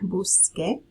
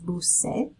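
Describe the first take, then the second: First: The final syllable begins with a K sound. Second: The final syllable begins with an S sound. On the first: It sounds like saying you looked for. The speaker calls it right. "with the spelling change, it lets you keep that pronunciation" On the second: It sounds like saying you snorkeled. The speaker calls it wrong. "if we did not change the spelling, we would have to pronounce it as bucé"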